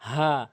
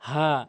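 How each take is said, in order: The two takes are said the same way.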